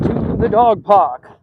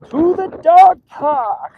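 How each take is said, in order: First: Said in the usual way. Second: High, drawn-out put-on voice; playful announcement. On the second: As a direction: stretch it out high, playfully heralding the outing. Playful repeat of the destination.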